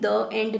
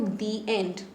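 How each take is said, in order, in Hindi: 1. 'The' को छोटे 'uh' स्वर के साथ बोला जाता है। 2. 'The' को लंबे 'ee' स्वर के साथ बोला जाता है। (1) "आप कभी द एंड नहीं कहते हो" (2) "आप एंड में पढ़ते हो दी एंड"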